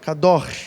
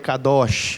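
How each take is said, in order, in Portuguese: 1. A palavra termina com um som áspero de garganta. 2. A palavra termina com um som suave de 'sh'. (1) "a pronúncia seria algo parecido com kador, né? Kador, que é o gutural ali" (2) "a gente fala no popular aí kadosh"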